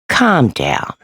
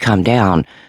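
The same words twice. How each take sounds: First: It is said in a patronizing, dismissive tone. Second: It is said in a gentle, caring tone. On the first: The speaker is belittling the other person. "It's more like a condescending" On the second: The speaker wants to soothe the other person. "calm down out of love"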